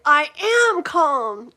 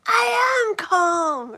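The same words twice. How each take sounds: First: Loud, insistent mock "I am calm"; loud joking "am calm"; mock Adam Sandler. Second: Much higher, loud, very slow strained yell; hammed-up higher yell "I am calm"; Adam Sandler yelling. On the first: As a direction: channel the movie line, pushy. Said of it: "what do I say? I think". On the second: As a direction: scream that you're calm. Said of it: "And he's like".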